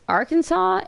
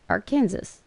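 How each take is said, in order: First: The ending sounds like the word saw. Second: The ending sounds like the state name Kansas. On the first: The speaker calls it right. "And then I found out it was Arkansas" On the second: The speaker calls it wrong. "I thought it was Arkansas because Kansas"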